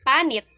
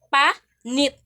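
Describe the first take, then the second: First: The word carries its basic stress placement. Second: The word carries a shifted stress placement. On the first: It means skin. "without original accent" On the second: It has a different meaning. "kung na siya different accent"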